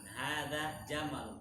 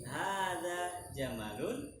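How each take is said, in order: First: "ada jamalun" said slowly, falling at the end; a measured statement, "ada jamalun" closing downward; statement intonation. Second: "Hada jamalun" drawn out, rising at the end; question intonation by mistake. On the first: Teacher correcting student's intonation, "ada jamalun" as a falling statement. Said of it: "kalau intonasi seperti itu, intonasi apa?". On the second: Teacher showing student's carried-over intonation, "Hada jamalun" rising like a question. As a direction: stretch "Hada jamalun" slowly upward like a question. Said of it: "Terbawa suasana ini".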